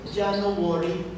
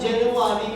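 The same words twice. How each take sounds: First: It is said with a 'no worry' sound inside. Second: It is said the usual way, as January. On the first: The month should be free of worry. The speaker calls it right. "Yung January, dapat no worry" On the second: The month is one of worry. The speaker calls it wrong. "instead of January"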